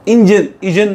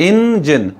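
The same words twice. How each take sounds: First: "इंजन" as one quick joined word, in-jen, i-jen; syllables run together. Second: "इंजन" as IN-JEN, both beats distinct and high; separated syllables. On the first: Teacher shows what not to read, "इंजन" run together. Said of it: "नहीं पढ़". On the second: Teacher shows how to read it, "इंजन" split in-jen. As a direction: give each half of "इंजन" its own beat. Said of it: "इन अलग है". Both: Shown as a demonstration.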